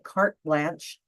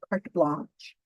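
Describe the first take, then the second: First: It is said with a plain English accent. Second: It is said with a French accent. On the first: The speaker calls it wrong. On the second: The speaker calls it right.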